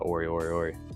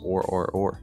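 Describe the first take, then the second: First: The final vowel after the R is pronounced. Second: The final vowel after the R is silent. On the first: "Hopefully I'm saying that right" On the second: "And the E is silent"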